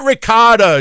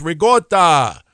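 First: "ricotta" as ri-KAH-da, pitched high and loud; mainstream "ricotta". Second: "ricotta" as ree-GAWT-ah, drawn out slowly; Italian-American "ricotta". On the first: Host rejects how shoppers say it, mainstream ri-KAH-da. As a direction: stress the open "KAH" in "ricotta". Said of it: "It's not ricotta". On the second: Host corrects the shoppers, Italian-American ree-GAWT-ah. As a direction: hit a hard g in "ricotta". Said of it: "it's ricotta". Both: Shown as a demonstration.

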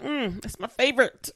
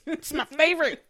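First: Said in the usual way. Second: Swooning fan gushing about her favorite. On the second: Real, not acted. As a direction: repeat it higher and louder, swooning.

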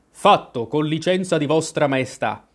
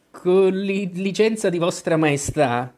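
First: Shouted back. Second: Slightly raised, deferential voice; very humble. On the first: Soldiers answer the queen, mild shout. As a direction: report like a soldier, lightly shouted. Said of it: "urlarono in risposta i soldati". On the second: Gardener answers the queen on one knee, very humble. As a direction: grovel before royalty. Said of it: "con tono assai umile". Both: A narrator's reading.

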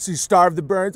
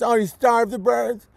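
First: Said in the usual way. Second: Higher, mocking repeat of starve; mocking echo. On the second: Echoing the caller's logic back at him, mocking. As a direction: throw the words back sarcastically.

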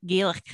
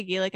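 First: "Gaelic" with a Scottish-style throaty final consonant. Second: Said in the usual way. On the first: Shown as a demonstration. Showing how she always has to say "Gaelic", with a throaty ending. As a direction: end "Gaelic" on a rasped ch sound. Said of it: "I have to do, like". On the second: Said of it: "every time I say Gaelic".

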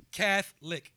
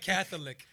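First: Slow "Catholic" as two syllables, CATH-lic; two-syllable pronunciation. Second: "Catholic" with the middle O sounded; imitating the pronounced O. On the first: Shown as a demonstration. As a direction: say "Catholic" with the middle O dropped. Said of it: "Two sylla-, two syllables". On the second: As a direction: mimic him saying "Catholic" in three syllables. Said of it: "He pronounced the O in Catholic".

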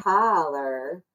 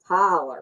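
First: "Tyler" drawn out slowly with a softened final R; slow Southern "Tyler" without a hard R at the end; soft Southern R. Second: "Tyler" with a hard R at the end. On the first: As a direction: stretch "Tyler" out, easing off the last R. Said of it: "I don't think there's a hard R". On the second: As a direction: bite down on the final R of "Tyler". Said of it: "like, hard R". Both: Shown as a demonstration.

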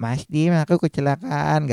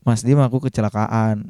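First: Higher, put-on plaintive girlfriend; lightly hammed-up accident report, pitched up; exaggerated victim tone. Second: Said in the usual way. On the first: Narrator mimicking Niken reporting her crash, exaggerated plaintive tone. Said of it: "Ngomongnya nadanya nggak kayak tadi ya". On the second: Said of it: "nadanya nggak kayak tadi ya, nggak".

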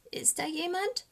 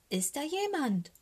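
First: High, small voice rising at the end; hushed frightened raven, barely daring to ask; fearful hushed question. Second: High, pitiful calling voice; frightened little raven calling, falling at the end; plaintive call. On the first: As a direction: ask timidly into the dark. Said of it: "flüstert der kleine Rabe". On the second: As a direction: call out anxiously, drawing out the question. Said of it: "Seine Stimme klingt ganz kläglich". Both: A narrator's reading.

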